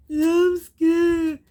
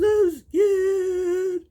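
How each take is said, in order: First: Loud, high sarcastic whine; mock scared wail. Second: High, loud mock crying whimper; mock scared wail. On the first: Viewer scoffing at crying bride, loud mocking whine. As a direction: ham up her whimper to mock it. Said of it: "She just bawled and bawled". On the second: Mocking the weeping bride to her mother, high loud whimper. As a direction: imitate a bride blubbering. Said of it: "She goes".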